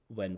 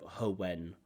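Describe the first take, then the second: First: The word starts directly without an added h sound. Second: A strong breathy h sound comes before the word. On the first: The speaker calls it right. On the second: The speaker calls it wrong.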